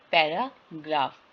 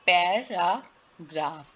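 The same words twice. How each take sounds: First: Said in the usual way. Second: "पैराग्राफ" slowly split as पै, रा, ग्राफ; syllable by syllable. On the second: Shown as a demonstration. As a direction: sound out "पैराग्राफ" with gaps between syllables. ("पैराग्राफ" को तोड़कर धीरे बोलें) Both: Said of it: "वीक vowel sound क्या है".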